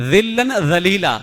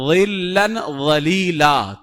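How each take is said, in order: First: ظلن ذلیلا with a light ذ instead of ظ; wrong recitation. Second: ظلن ولیلا very slow, ظ thick and heavy; correct heavy recitation. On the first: Teacher imitating a student's mistake, light ذ. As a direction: say ظلن ذلیلا as the careless reader does. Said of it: "لیکن بندہ غلطی سے کیا پڑھ رہا ہے". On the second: Teacher giving the right reading to students, slow. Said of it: "موٹا پڑھنا چاہیے". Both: Shown as a demonstration.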